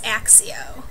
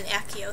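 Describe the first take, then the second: First: The middle consonant is pronounced ks. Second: The middle consonant is pronounced k. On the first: This is how the speaker read it in the book. "I think I read it as Axio" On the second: This is how the movies say it. "And then Akio threw me off too"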